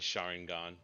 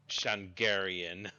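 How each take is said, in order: First: The word sounds like Sharingan. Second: The word sounds like Shangarian. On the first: The speaker calls it right. "rather than Sharingan" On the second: The speaker calls it wrong. "conjured uh the the word Shangarian in my head"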